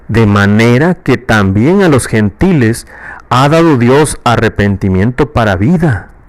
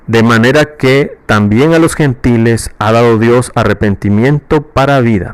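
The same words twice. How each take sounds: First: It is read as an exclamation of astonishment. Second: It is read plainly, without exclamation.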